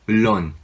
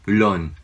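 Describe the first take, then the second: Both takes have the same delivery.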